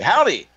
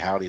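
First: It is said excitedly, like an exclamation. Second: It is said flatly, without excitement.

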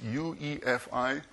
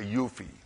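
First: Each of the four letters is said separately. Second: It is said as one short word. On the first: "It says UEFI" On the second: "I say UFI, I pronounce this totally wrong"

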